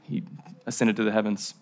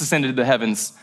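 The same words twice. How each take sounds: First: Low-key aside. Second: Said in the usual way. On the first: Shown as a demonstration. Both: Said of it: "Low-key detail".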